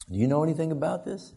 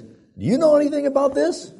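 First: Higher but controlled repeat question; mock measured questioning. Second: Very high, loud retold interrogation; mock angry demand. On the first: Dad asks his lying son again, restrained interrogation. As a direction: ask it again, holding back the volume. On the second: Dad points at the mess, mock outraged demand. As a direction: confront the culprit, voice shooting up.

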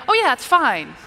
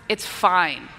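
First: High, loud, breezy okay; easygoing reassurance. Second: Low, terse resignation; not really fine. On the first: Preacher showing how tone changes the message, breezy. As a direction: brush it off lightly and readily. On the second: Preacher showing how tone changes the message, not really fine. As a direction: say fine while meaning the opposite. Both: Shown as a demonstration. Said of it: "Very, very different messaging there".

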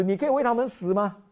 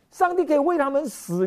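First: 重读“为”，语速加快; stress on 为. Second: 上帝 stressed high and loud; 重读上帝的帝字，声音高而响. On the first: (反问时强调“为”) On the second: (强调“上帝”) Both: Shown as a demonstration.

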